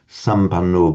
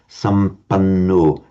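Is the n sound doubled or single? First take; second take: single; doubled. First: The n sound is short and single. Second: The n sound is held long and doubled. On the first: The speaker calls it wrong. "It's not" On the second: The speaker calls it right. "pronounce it emphatically double"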